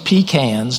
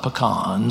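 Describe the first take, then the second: First: It is said with a South Georgia pronunciation. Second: It is said the general, non-local way.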